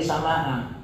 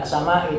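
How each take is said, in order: First: "sama'a" ending in an a vowel; correct case ending. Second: "sama'i" ending in an i vowel; wrong case ending. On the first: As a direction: say "sama'a" with final -a. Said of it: "tapi sama'a". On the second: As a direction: say "sama'i" with final -i. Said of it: "Ndak sama'i". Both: Shown as a demonstration.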